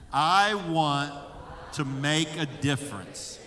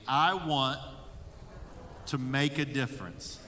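First: It is said with louder, livelier energy. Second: It is said with ordinary, moderate energy. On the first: "let's say it more enthusiastically" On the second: "I want you to say that with me"

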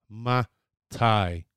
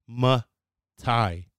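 No difference in how they are said.

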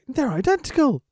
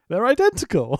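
First: It sounds earnest, like a sly pretend sincerity. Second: It sounds flat and openly dismissive. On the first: The speaker is knowingly lying to deceive. "he's an evil lying heel" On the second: The speaker has contempt for the other person. "Here he's saying it like, fuck this guy"

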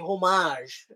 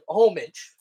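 First: The word is said in a fancy, pretentious way. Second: The word is said plainly, the way it looks. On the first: This is said to sound sophisticated. "we're going to say homage because we want to sound like douchebags" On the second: This is how the word looks on the page. "it's spelled, it looks like homage"

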